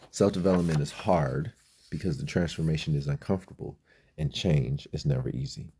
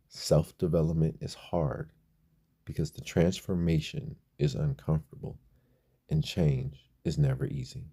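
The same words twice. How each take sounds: First: The sentence is spoken at a normal pace. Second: The sentence is spoken at a slower pace.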